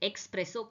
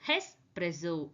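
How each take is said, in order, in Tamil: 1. இது 'ex'-ல ஆரம்பிக்குது, அதுல k ஒலி இருக்கு. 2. இது 'es'-ல ஆரம்பிக்குது, k ஒலி இல்லை. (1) "இது பேர் எக்ஸ்பிரஸோ கிடையாது" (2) "திஸ் இஸ் கால்ட் அஸ் ஹெஸ்பிரெஸோ"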